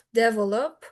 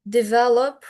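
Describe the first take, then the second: First: "develop" with the first syllable stressed, DEV-el-op; stress demo on develop. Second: "develop" with the middle syllable stressed, de-VEL-op; stress demo on develop. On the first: Teacher showing stress patterns, "develop" stressed on the first syllable. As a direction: punch the opening syllable of "develop". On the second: Teacher showing stress patterns, "develop" stressed on the middle syllable. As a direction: draw out "develop", leaning on its second syllable. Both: Shown as a demonstration. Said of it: "best to learn stress patterns by heart".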